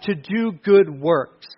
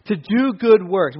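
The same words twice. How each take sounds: First: Slow, with "good" leaned on hard; stress on good. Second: "good" stressed, falling to a close. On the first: Pastor lingering on "good" for the congregation, slow and stressed. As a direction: spell out "good" slowly and heavily. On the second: Pastor repeating the phrase, slow, with "good" pressed down. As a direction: repeat it slowly and land on "good". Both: Shown as a demonstration.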